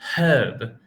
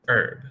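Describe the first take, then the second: First: The word starts with an audible h sound. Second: The word starts with a vowel, no h. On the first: "In British English, you would say huh, herb. ... by saying this H sound" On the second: "American English, we would pronounce it as herb, like this"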